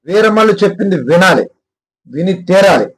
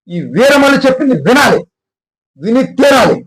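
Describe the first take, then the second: First: It is said flatly, with little force. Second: It is said forcefully, with great intensity.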